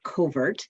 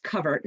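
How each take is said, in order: First: Covert said as "COH-vert"; wrong pronunciation. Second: Covert said as "CUV-ert"; correct pronunciation. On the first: Director showing the group the mistaken name, covert as "COH-vert". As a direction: say covert with a long o, as in "co-". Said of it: "not covert". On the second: Director teaching the group her organization's name, covert as "CUV-ert". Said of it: "it's actually pronounced". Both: Shown as a demonstration.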